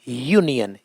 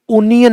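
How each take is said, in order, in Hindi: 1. यह शब्द 'y' ध्वनि से शुरू होता है। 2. यह शब्द साधारण 'oo' स्वर से शुरू होता है। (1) "य" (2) "उनियन नहीं"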